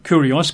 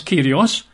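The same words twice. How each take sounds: First: Said in the usual way. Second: "Kyrios" said KEER-ee-oss, ee not oo; modern Greek pronunciation. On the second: Shown as a demonstration. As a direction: say "Kyrios" with an ee in the first syllable. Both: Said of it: "I think it's pronounced Kyrios".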